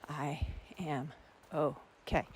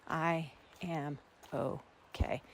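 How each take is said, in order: No difference in how they are said.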